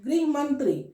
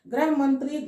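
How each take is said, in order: First: The first word is pronounced with 'ri', as grih. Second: The first word is pronounced with 'ra', as grah. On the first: It refers to the home affairs minister. The speaker calls it right. "ध्यान दोगे कि ग्रह है या गृह" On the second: It would mean planet instead of home. The speaker calls it wrong. "ये गलत हो जाएगा"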